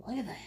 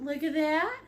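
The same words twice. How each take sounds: First: Hushed whisper. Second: Said in the usual way. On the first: Real, not acted. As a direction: drop to a soft whisper. Painting demo, hushed repeat.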